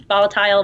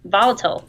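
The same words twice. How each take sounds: First: "volatile" ending like "tile"; long-i pronunciation. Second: "volatile" ending in a short "-tl"; short-ending pronunciation. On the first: Guest retries a tricky word, "volatile" as VOL-uh-tile. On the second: Guest tries pronouncing a tricky word, "volatile" as VOL-uh-tl. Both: Real, not acted. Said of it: "I don't know how to pronounce the word".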